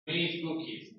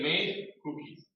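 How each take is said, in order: First: The d sound is pronounced very softly. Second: The d sound is pronounced strongly. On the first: The speaker calls it right. "Because D is very soft. Very soft" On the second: The speaker calls it wrong. "I don't say made cookies"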